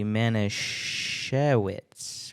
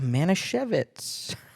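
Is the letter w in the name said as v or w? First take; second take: w; v. First: The w is pronounced as a w sound. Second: The w is pronounced as a v sound. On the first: The speaker calls it wrong. "that doesn't sound right" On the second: The speaker calls it right. "I think it's supposed to be a V sound"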